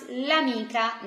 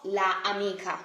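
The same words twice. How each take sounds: First: L'amica run together as one word, no gap after the l; elided article. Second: La amica as two words, la kept whole before amica; wrong unelided article. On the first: Teacher models the Italian for learners, l'amica joined as one word. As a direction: say l'amica smoothly, the article joined onto the noun. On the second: Teacher shows learners what is not Italian, la amica left unjoined. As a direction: keep the full la apart from amica. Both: Shown as a demonstration. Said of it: "That doesn't sound nice, not at all Italian".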